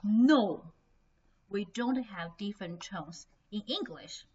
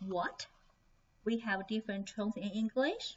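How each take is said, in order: First: Loud NO, then a plain falling statement; imagined student's flat contradiction; firm denial. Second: WHAT rising, then English lifting at the end; imagined student's puzzled question; surprised question. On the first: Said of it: "Maybe someone said". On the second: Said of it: "probably you will say". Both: Acted.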